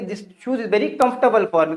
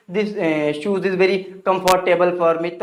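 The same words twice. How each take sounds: First: Comfortable said KUMF-tuh-bl, short middle; correct pronunciation. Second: Comfortable said kum-FOR-tay-bl; wrong pronunciation. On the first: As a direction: squeeze comfortable into three syllables, KUMF-tuh-bl. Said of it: "क्या बोलेंगे?". (comfortable को "कम्फ़्टबल" बोलें) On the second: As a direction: say comfortable with full "fort" and "table". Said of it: "that's the wrong pronunciation of this word". (comfortable को "कम्फ़ोर्टेबल" बोलें) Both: Shown as a demonstration.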